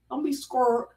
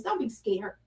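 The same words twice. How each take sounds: First: Texas accent. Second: Said in the usual way. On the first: Shown as a demonstration. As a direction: say it the Texan way, a touch of Texas. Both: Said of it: "like they say in Texas".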